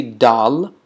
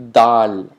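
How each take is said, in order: First: Dal as in the lentil dish, plain English d; not this dal. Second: Dal with the tongue on the teeth; dal said with a dental d, tongue tip touching the teeth; Arabic dal. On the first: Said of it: "you're not gonna say dal". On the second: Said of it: "but you're gonna say dal". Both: Shown as a demonstration.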